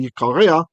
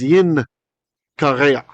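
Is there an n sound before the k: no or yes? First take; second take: no; yes. First: No n sound comes before the k. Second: An n sound comes before the k. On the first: This is the form used today. "we just say today yikareya" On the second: This is the older form of the word. "in ancient Hebrew it was yin kareya"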